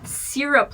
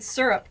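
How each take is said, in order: First: Syrup is said the Eastern regional way. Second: Syrup is said the non-Eastern regional way. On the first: "like a proper Easterner" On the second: "I've always said syrup growing up"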